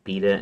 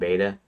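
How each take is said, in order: First: It is said the British way. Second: It is said the American way. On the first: "people from the U K will pronounce it beta" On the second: "instead of beta"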